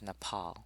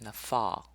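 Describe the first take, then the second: First: The middle consonant is a P sound. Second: The middle consonant is an F sound. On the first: The speaker calls it right. "we would pronounce this as Nepal" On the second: The speaker calls it wrong. "even though they refer to it as Nafal"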